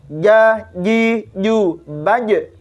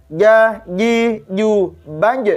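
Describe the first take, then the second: No difference in how they are said.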